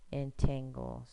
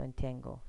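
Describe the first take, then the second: First: Entangle split into syllables, en-tan-gle. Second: Said in the usual way. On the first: Shown as a demonstration. Teacher sounding out entangle by syllable for students. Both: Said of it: "say it by syllable".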